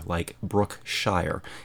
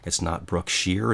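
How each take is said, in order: First: The ending is said fully, like the word shire. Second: The ending is reduced, not like the word shire. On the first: The speaker calls it right. "Anything with S-H-I-R-E on the end is pronounced Shire" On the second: The speaker calls it wrong.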